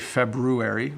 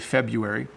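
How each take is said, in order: First: The first r is clearly pronounced. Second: The first r is dropped. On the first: The speaker calls it wrong. "notice I don't say February" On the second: The speaker calls it right. "we say February"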